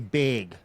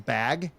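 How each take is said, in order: First: The vowel is raised so it sounds like big. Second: The word is said with a plain open vowel. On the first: "she'll say big" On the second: "when she says bag"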